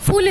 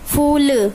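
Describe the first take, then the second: First: The vowel is clipped short. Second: The vowel is drawn out long. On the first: The speaker calls it wrong. "फूल नहीं बोलेंगे" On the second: The speaker calls it right. "ये बोलेंगे ना"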